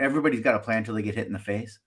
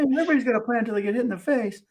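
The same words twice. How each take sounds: First: It is said in the speaker's ordinary voice. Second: It is said in a put-on imitation voice.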